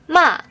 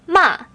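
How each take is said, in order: Both takes have the same delivery.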